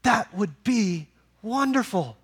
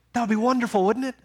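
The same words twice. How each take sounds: First: Slower, drawn-out repeat; slow savoring. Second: Higher, eager exclaim on wonderful; eager exclamation. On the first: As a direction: savor each word slowly. Preacher repeats line, savoring it. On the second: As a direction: lift the line up with wonder. Preacher exclaims then repeats. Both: Acted.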